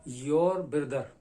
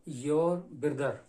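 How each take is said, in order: No difference in how they are said.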